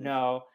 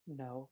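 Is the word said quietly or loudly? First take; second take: loudly; quietly. First: The word is said loudly. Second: The word is said quietly.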